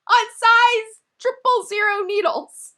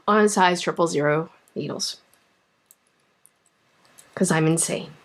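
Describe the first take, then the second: First: High, slow, laughing disbelief; exasperated punchline. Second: Low and deflated after a sigh; resigned. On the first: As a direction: stretch it out like it's absurd. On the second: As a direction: let the air out of it. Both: Real, not acted.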